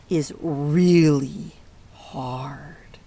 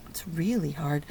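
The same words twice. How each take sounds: First: Slow, hushed whisper on really hard; whispered emphasis. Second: Said in the usual way. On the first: Real, not acted. Teacher to kids, hushing how hard it is, slow whisper. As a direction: let it sink in with a slow whisper. Gravely stressing a hard situation.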